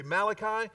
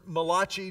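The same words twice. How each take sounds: First: Said in the usual way. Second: Malachi said as "muh-LAH-chee"; alternate Hebrew reading. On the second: Shown as a demonstration. Offering the congregation another reading, Malachi as muh-LAH-chee. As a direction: stress the middle of Malachi, ending in "chee". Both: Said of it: "depending on how you read Hebrew".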